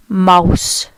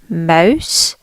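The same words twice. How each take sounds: First: Mouse with a longer, stressed ow sound; German-style mouse. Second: Said in the usual way. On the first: Shown as a demonstration. Teacher contrasting English and German for learners, stressed ow. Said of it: "There's more emphasis on the ow sound". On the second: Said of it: "Where we say mouse".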